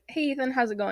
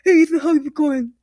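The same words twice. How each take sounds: First: The s sound is spoken plainly, without a lisp. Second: The s sound is exaggerated into a mocking lisp. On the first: This is how the speaker normally talks. "I'll be like" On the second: Someone else is mocking the speaker's supposed lisp. "And he's like"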